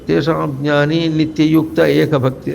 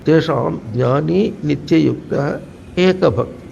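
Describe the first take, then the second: First: Run together with no break, dropping the visarga. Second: A break follows nityayuktah, keeping the final visarga. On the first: Two quarter-verses are read as one unit. "రెండు పాదములు కలిపి చదివితే ... విసర్గ లోపం అవుతుంది" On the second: The quarter-verse is treated as complete. "అక్కడికి పాదం పూర్తయింది"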